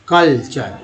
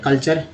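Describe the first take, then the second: First: culture drawn out as कल, then चर; split in two parts. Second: Said in the usual way. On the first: Shown as a demonstration. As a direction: separate the two halves of culture. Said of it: "दो part से मिलकर बना". (Culture को दो हिस्सों में, ठहरकर) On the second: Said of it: "कल एक पार्ट है".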